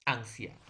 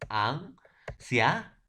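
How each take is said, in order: First: Said in the usual way. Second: Drawn out slowly, syllable by syllable; slow syllable demo. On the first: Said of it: "silabear la palabra anciano". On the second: Shown as a demonstration. Teacher showing students how to split the word, slowly drawn out. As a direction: spell out the syllables slowly for the class. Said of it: "cómo voy a silabear la palabra anciano".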